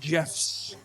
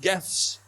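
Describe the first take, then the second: First: The word begins with a soft J sound. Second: The word begins with a hard G sound. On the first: The speaker calls it wrong. "not gifs, not a J" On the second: The speaker calls it right. "I'm saying gifts, because it's a G"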